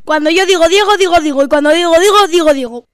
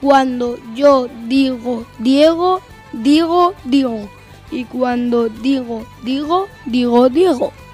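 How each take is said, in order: First: It is said at a very fast speed. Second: It is said at a slow speed.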